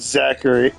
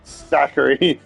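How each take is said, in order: First: The name begins with a plain z sound. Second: The name begins with a lisp-like th sound. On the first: This is the form the speaker wrongly assumed. The speaker calls it wrong. "not Zachary" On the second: This is the name's real form. The speaker calls it right. "it's actually Zachary"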